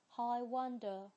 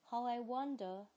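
The two takes are said the same way.

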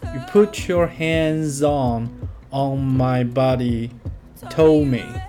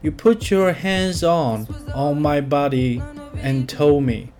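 First: The word 'and' is dropped before 'told me'. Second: The word 'and' is pronounced before 'told me'.

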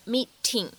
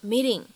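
First: The t is a clear, full t sound. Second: The t is a soft flap, like d. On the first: The speaker calls it wrong. "我们不用读成meeting" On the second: The speaker calls it right. "明显做的是一个闪音的处理……介乎于t 和d 之间的感觉"

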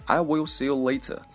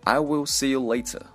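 First: The t in later is crisp and released. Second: The t in later is crisp and released.

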